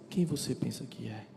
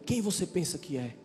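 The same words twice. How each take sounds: First: It is said in a calm, tender tone. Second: It is said in a harsh, rude tone.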